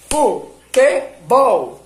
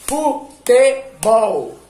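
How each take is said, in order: First: "Futebol" split very slowly into FU-TE-BOL, loud; "Futebol" called syllable by syllable. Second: "Futebol" split very slowly into FU-TE-BOL, loud and higher; "Futebol" called out syllable by syllable. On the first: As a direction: beat out "Futebol" again in three slow loud syllables. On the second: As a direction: beat out "Futebol" in three loud slow syllables. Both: Shown as a demonstration. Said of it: "enquanto você tá falando as sílabas".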